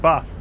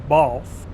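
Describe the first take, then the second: First: The vowel is said the northern way. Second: The vowel is said the southern way. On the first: The speaker calls it right. "You take a bath. You see, language was invented up north" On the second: The speaker calls it wrong. "you don't take a bath"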